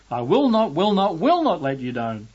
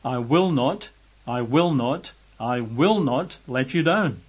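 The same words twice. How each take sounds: First: High, loud start on "I will not"; utterly emphatic. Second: Steady stress on each WILL; "will" lifted in each measured "I will not"; emphatic repetition. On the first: Preacher drives home God's triple promise, utterly emphatic. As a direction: hammer each "will not" without letting up. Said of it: "can't really make it any more emphatic". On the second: Preacher renders the Greek triple negative, emphatic. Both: Retold or imitated.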